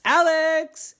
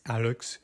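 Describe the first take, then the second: First: High, sung-out call of a name. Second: Low, soft echo of a call. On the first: Kids looking for Alex, calling out high. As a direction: call for someone lost in the house. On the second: Empty house answering the kids, low soft echo. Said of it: "So many echoes". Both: Acted.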